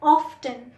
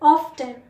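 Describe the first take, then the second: First: A t sound is heard in the middle. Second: The same.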